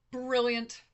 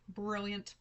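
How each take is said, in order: First: Loud, delighted exclamation; excited. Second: Said in the usual way. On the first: Real, not acted. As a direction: burst out with it happily. Reacting to chat comment.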